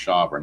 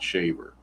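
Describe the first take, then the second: First: The first vowel sounds like in 'saw'. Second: The first vowel sounds like in 'say'. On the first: The speaker calls it right. "I guess it's pronounced Shawver" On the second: The speaker calls it wrong. "not Shaver"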